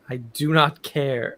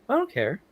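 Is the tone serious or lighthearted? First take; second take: serious; lighthearted. First: It is said in a serious tone. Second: It is said in a lighthearted tone.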